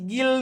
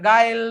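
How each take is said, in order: First: The vowel sounds like a short i. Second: The vowel sounds like ai. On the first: "કે પછી ગિલ નો થાય" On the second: "નકર ગાયલ નો થાય"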